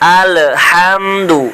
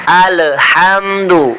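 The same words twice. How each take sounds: The two takes are said the same way.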